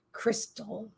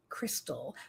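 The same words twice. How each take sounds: First: Softly voiced, much quieter; hushed reveal. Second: Barely audible whisper; whispered repeat, voice nearly gone. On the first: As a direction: let the name land gently. Hushed reveal of the daughter's name. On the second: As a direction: breathe the name out in awe. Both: Real, not acted.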